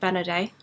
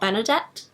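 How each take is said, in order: First: The name ends in a vowel, no final T. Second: The name ends with a clear T sound. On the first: The speaker calls it right. "I believe you pronounce it Benaday" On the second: The speaker calls it wrong. "not Benedette"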